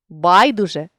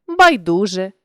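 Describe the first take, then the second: First: Байдуже with БАЙ stressed; stress on first syllable. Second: Байдуже with ДУ stressed; stress on middle syllable. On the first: Teacher shows a stress variant, байдуже stressed on БАЙ. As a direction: punch the opening БАЙ of байдуже. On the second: Teacher shows a stress variant, байдуже stressed on ДУ. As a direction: lean on ДУ inside байдуже. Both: Shown as a demonstration. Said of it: "наголосивши той чи інший склад".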